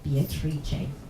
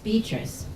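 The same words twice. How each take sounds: First: The name is pronounced the Italian way. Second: The name is pronounced the English way.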